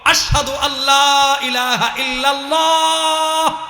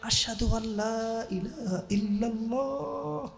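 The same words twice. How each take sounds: First: The phrase is said in a loud, raised voice. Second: The phrase is said in a quiet, low voice. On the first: The man declares it openly, taking the risk. "এইবার বড় আওয়াজে বললেন" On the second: The man fears being overheard. "ছোট আওয়াজে"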